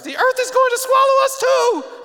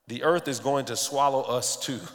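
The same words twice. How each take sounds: First: It is said in a comic put-on voice. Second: It is said in his natural voice.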